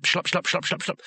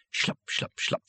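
First: Quickening, higher footstep imitation; urgent run of squelching steps; speeding-up footsteps. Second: Hushed, voiceless footstep sounds; soft, spaced-out squelching steps; creeping footstep imitation. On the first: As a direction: rattle the steps off faster and faster. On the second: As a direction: whisper each step as an eerie sound effect. Imitates following footsteps, slowly. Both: A narrator's reading.

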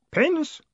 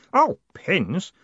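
First: PINS rising high as a question; high querying lift on "Pins"; puzzled question. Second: "Oh" high, then dismissive "pins"; dawning recognition. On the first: Boy puzzled by the word. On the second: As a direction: say "Oh, pins" as it dawns on you. Boy realises, then dismisses pins. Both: Acted.

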